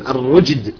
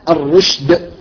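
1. الحرف الأوسط يُنطق مثل j. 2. الحرف الأوسط يُنطق مثل sh.

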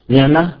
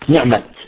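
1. تنتهي الكلمة بصوت هاء خفيف. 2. تنتهي الكلمة بصوت تاء واضح. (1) "مرة تاء مربوطة" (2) "ومرة تاء مبسوطة"

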